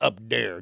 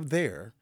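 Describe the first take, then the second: First: The word there begins with a d sound. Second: The word there begins with a th sound.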